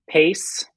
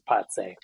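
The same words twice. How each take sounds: First: The name is said with an American accent. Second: The name is said with a Latvian accent. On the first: "the American pronunciation of Pace" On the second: "it's pronounced Pace with the lovely Latvian accent"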